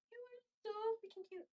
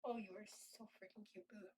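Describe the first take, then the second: First: High pet-talk cooing. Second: Hushed, low-key adoration; soft cooing to cat. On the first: Owner fussing over the cat, high-pitched cooing. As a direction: coo in a little high voice to a pet. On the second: Owner admiring the cat, soft and low cooing. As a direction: quietly murmur affection to a pet. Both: Real, not acted.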